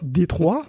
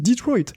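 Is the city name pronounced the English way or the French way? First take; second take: French; English. First: The name is said with French pronunciation. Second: The name is said with English pronunciation. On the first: This is how French people say it. "les Français disent peut-être" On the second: This is how English speakers and locals say it. "cinq cents millions d'anglophones ... disent"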